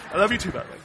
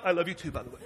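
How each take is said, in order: First: Tender aside. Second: Laughing aside. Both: Real, not acted.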